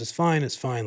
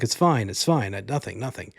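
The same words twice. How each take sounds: First: Said in the usual way. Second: Lightly voiced husband brushing it off; a hint of a dismissive husband, trailing away; Alfred Molina voice. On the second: Husband waving off his wife's worry, lightly voiced. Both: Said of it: "I'm gonna do his voice".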